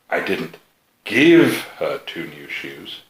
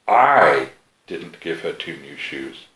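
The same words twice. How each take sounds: First: The word give carries the main stress. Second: The word I carries the main stress. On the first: She got them but had to pay. "You sold her two new shoes" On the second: Someone else gave them to her. "somebody did. It just wasn't you"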